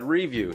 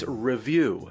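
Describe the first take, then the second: First: The first syllable sounds like 'ree'. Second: The first syllable sounds like 'rih'. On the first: This is the speaker's own habitual way. "I've always said review" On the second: This is how everyone else says it. "everybody tells me it's review"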